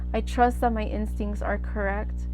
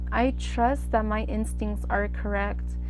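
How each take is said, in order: No difference in how they are said.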